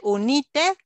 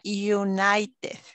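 First: It is read the way it is spelled. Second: It starts with 'you' and has 'eye' inside. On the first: The speaker calls it wrong. "se escribe United" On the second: The speaker calls it right. "pero se pronuncia United"

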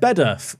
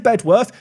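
First: The W sound in the name is silent. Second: The W sound in the name is pronounced. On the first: This is how locals reportedly say the name. "which I've been told is actually said Bedworth" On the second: This follows the spelling of the name. "I'm going to say Bedworth because it's got a W in it"

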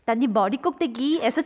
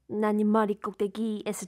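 First: It is said in a bright, cheerful voice. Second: It is said in a low, speech-like voice. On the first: "인간 비타민 버전" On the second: "약간 낮은 목소리로 말하듯이"

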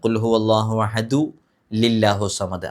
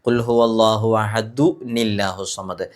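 First: An l sound links ahadu to allahu. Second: An n sound links ahadu to allahu. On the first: The speaker calls it wrong. "അത് തെറ്റാണ്" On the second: The speaker calls it right. "അഹദു കഴിഞ്ഞിട്ട് നീന്നാണ് ഉച്ചരിക്കേണ്ടത്"

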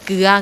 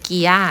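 First: The vowel is the diphthong uea. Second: The vowel is the diphthong ia. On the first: This is the standard Thai pronunciation. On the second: This is the local Isan pronunciation.

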